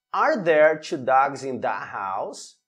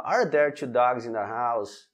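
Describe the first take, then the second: First: Slow, rising question tune at the end; question intonation. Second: Low, falling tune with no question lift on house; flat question. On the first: Teacher to students modelling the right question tune, slow rising intonation. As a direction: let the pitch climb on house like a real question. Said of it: "É muito importante também a entonação". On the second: Teacher showing students the wrong flat delivery, lower and falling. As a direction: say it like a statement, dropping at the end. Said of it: "sem que tenha essa entonação de pergunta". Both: Shown as a demonstration.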